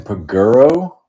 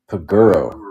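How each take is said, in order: First: "Paguro" rising at the end as a question; unsure, questioning. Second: "Paguro" with the tune falling to a close; settled second try. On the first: Host unsure of a character's last name, "Paguro" as a rising question. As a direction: try out "Paguro" tentatively, lifting the last syllable. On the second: Host settling on a character's last name, "Paguro" with a falling tune. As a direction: land "Paguro" as a statement, dropping at the end. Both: Real, not acted. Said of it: "I don't know how to pronounce".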